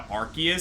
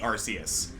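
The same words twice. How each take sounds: First: The name begins with a sound like 'ark'. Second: The name begins with a sound like 'arse'. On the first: This is the official newer pronunciation. "official pronunciation change to Arceus" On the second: This is the older pronunciation. "it used to be Arceus"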